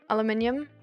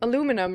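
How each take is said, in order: First: It is said with a British pronunciation. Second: It is said with an American pronunciation. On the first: "I did say it in the in the British way" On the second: "the American way is then like aluminum"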